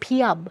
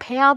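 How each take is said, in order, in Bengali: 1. শেষের অংশটি ya-র আগে একটি স্বরধ্বনি দিয়ে ভাগ হয়। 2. শেষের অংশটি একটি ছোট, ঝটপট দল হিসেবে উচ্চারিত হয়। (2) "ভ্যাম নয়"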